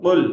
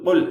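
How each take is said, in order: Both takes have the same delivery.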